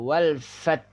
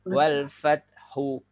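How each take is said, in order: First: The word ends on t with no h sound. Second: The word ends with a full h and vowel. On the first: The speaker calls it wrong. "Kalau fat saja, suara hak tidak nampak" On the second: The speaker calls it right. "kalau kita baca lengkap"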